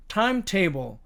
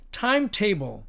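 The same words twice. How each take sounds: The two takes are said the same way.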